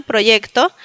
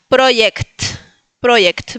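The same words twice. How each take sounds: First: Said in the usual way. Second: "Project" as PRO-yekt, j like y; Polish pronunciation. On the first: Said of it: "también tenemos en español". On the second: Shown as a demonstration. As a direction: model "Project" with final kt, no o. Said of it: "en lugar de ellos tener la Y". ("Project" en polaco, j como i griega)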